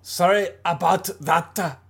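It is said in a German accent.

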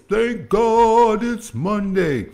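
It imitates E T, the hip hop preacher.

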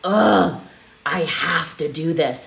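It sounds reluctant and weary.

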